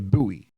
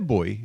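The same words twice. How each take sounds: First: It is said the American way. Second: It is said the speaker's own non-American way. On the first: "But Americans say buoy" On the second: "we say buoy"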